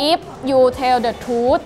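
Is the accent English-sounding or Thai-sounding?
Thai-sounding. It is said with a Thai accent. "ลองสำเนียงไทยกันดูบ้างนะคะ"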